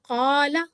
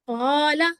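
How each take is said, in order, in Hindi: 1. यह गहरी, गले से निकली q की आवाज़ से शुरू होता है। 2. यह गहरी, गले से निकली q की आवाज़ से शुरू होता है।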